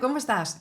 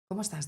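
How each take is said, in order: First: It sounds cheerful, with a high pitch. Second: It sounds sad, with a lower pitch. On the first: The speaker feels glad. "Si tú estás alegre, ... El tono es agudo" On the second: The speaker feels down. "Si tú estás triste"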